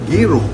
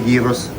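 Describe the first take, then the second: First: The word is said without a final s sound. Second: The word is said ending with an s sound. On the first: The speaker calls it right. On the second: The speaker calls it wrong. "hindi gyros"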